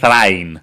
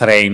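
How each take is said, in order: First: The vowels are said as two separate sounds. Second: The vowel is said as one gliding diphthong. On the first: This is how the author meant the name. The speaker calls it right. "ήταν Thrain" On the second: This is how the film says the name. The speaker calls it wrong. "όπως το λέγανε στην ταινία"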